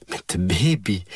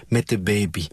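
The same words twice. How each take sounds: First: Put-on incredulous echo, pitch jumping up on baby; voice shooting up. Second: Said in the usual way. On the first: A narrator's reading. Helene echoes the father's answer, voice shooting up. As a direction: repeat it in startled disbelief, voice leaping. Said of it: "Helene's stem schoot de hoogte in".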